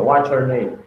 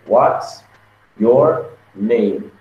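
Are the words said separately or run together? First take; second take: run together; separately. First: The words are run together, American style. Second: Each word is said separately and carefully.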